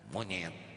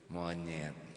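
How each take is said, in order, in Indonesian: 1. Kata itu diucapkan dengan nada kasar dan menghina. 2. Kata itu diucapkan dengan nada ramah. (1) "Ganti nadanya. ... Tersinggung itu hadirin" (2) "Tuh nggak ada yang tersinggung"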